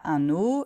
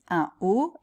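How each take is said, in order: First: Un links to haut with an n sound. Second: Un is kept separate, with no n link. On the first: The speaker calls it wrong. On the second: The speaker calls it right. "on dit"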